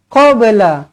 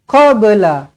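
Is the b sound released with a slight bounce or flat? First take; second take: bounce; bounce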